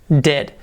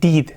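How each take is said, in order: First: The vowel sounds close to an 'e'. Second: The vowel sounds like a tense 'ee'. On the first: The speaker calls it right. "La E, remember? Como una E" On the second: The speaker calls it wrong. "No pronunciéis did"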